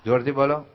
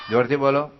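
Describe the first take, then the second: First: Said in the usual way. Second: Shouted jોરથી બોલો; loud call. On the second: Real, not acted. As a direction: raise your voice to get them shouting.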